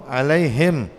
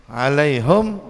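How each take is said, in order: The two takes are said the same way.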